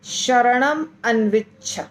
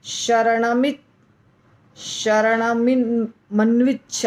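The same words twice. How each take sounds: First: शरणम अन्विच्छ said slowly as two separate words; a clear break between शरणम and अन्विच्छ; अलग अलग उच्चारण; words kept apart. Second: शरणमन्विच्छ joined into one word and stumbled over, slowly; tripping over the joined word; जोड़कर अटकते हुए; mock stumbling. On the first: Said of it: "हम इसको अलग-अलग बोलेंगे". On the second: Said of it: "बहुत difficult है बोलना". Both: Shown as a demonstration.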